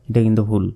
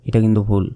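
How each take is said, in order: No difference in how they are said.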